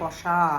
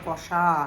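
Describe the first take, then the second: First: The middle consonant is an 'sh' sound. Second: The middle consonant is an 'sh' sound.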